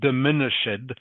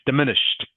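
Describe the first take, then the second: First: The final -ed does not sound like T. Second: The final -ed sounds like a T. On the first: The speaker calls it wrong. "it's not diminished" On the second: The speaker calls it right. "pronounced like a T is on the end"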